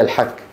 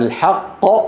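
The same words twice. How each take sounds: First: The q is thinned until it sounds like k. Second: The q is said full and deep. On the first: The speaker calls it wrong. "هذا فلان عم يحك هيك" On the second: The speaker calls it right. "أما الحق هذا ضد الباطل"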